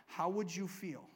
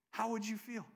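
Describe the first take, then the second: First: Said in the usual way. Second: Chuckling as you repeat the question; amused, laughing question. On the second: Shown as a demonstration. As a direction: ask it again through a laugh.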